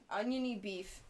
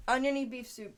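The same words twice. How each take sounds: First: Said in the usual way. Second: Proud naming. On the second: Shown as a demonstration.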